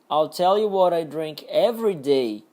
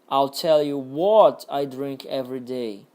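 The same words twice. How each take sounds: First: The stress falls on the words every day. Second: The stress falls on the word what. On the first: "Agora no último, every day" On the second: "Agora no what"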